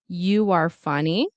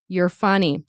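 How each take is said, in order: First: A W sound links 'you' and 'are'. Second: 'You are' is contracted into one quick syllable. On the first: "with a W" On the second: "in fast speech, we will reduce it to you're"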